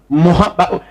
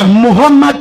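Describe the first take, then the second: First: The name is said as Mohamed. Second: The name is said as Muhammad. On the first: The speaker calls it wrong. "c'est pas Mohamed" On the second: The speaker calls it right. "Il faut prononcer ça comme ça avec respect"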